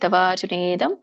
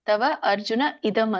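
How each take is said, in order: First: The words are merged into one continuous word. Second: The words are said apart as separate words. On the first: "ಕೂಡಿ ಹೇಳಿ" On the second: "ಇದನ್ನ ಬಿಡಿಸಿದಾಗ"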